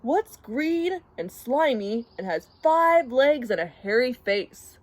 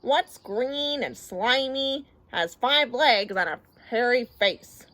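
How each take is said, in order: First: Lively riddle-asker, lightly voiced; Ernie. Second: Slow, drawn-out repeat of a riddle; weary, sighing. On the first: Ernie puts a riddle to Bert, mildly animated. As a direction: pose the riddle with a touch of mischief. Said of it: "said Ernie". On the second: Bert humours Ernie's riddle, slow and resigned. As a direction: echo the riddle wearily, stretching the words. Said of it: "sighed Bert". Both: A narrator's reading.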